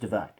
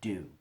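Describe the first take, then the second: First: The name is said with two syllables, like divine. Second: The name is said with one syllable, like dune. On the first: The speaker calls it wrong. "initially I thought it was Divine" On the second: The speaker calls it right. "it's just actually Dune"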